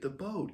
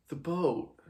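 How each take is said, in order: First: High, rising, dopey "The boat."; "The boat." like a nodding simpleton; village idiot. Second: Short, flat, falling "The boat."; blunt answer. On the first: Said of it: "nodding like a village idiot". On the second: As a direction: say "The boat." as a plain flat fact. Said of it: "Simon just says". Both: Acted.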